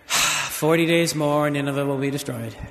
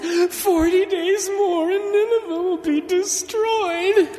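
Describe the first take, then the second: First: It is said in a half-hearted, reluctant tone. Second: It is said in a sad, sorrowful tone. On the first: The messenger does not care about the message. "Did he say it half-heartedly" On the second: The messenger grieves over the coming destruction. "Did he say it with sadness?"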